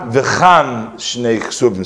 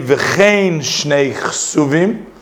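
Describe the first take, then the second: First: The first word has an 'ah' vowel. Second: The first word has an 'ay' vowel. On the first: The speaker calls it wrong. "not with a Pasach under the Chav" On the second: The speaker calls it right. "we say Tzere under the Chav"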